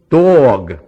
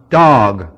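First: The vowel is a rounded 'oh' sound. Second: The vowel is an open 'ah' sound. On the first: "East Coast" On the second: "West Coast. ... We have a ah sound to it"

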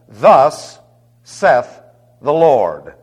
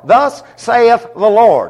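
First: Saith is said as one syllable, like Seth. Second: Saith is said as two syllables, like say-eth. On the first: The speaker calls it right. "Now you notice I pronounced it Seth" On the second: The speaker calls it wrong.

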